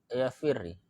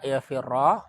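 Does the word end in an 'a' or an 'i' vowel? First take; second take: i; a. First: The word ends with an 'i' vowel. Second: The word ends with an 'a' vowel. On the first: "Anda bisa baca kasroh lamnya" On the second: "bisa juga dibaca fathah"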